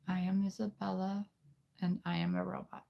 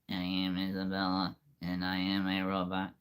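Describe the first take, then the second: First: It is said in a put-on girl's voice. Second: It is said in a put-on robot voice.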